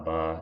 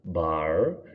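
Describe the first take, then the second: First: The final R sound is dropped. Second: The final R sound is pronounced. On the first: "you're saying car, bar, ... dropping off the R" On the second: "you're not saying car, bar"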